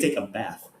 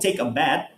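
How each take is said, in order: First: The last word ends with a soft th sound. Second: The last word ends with a hard t sound. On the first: The speaker calls it right. "we take a bath" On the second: The speaker calls it wrong. "we don't take a bath"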